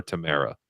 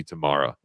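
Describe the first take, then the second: First: Tamara with an AIR middle, tuh-MAIR-uh; alternate pronunciation. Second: Tamara with a broad AH, tuh-MAR-uh; alternate pronunciation. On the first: Host unsure of member's name, Tamara said tuh-MAIR-uh. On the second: Host thanking a member by name, Tamara said tuh-MAR-uh. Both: Shown as a demonstration. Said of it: "however you say it".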